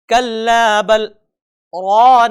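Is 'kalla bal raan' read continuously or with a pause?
paused. It has a brief pause after 'bal'. The speaker calls it right. "सही तरीका"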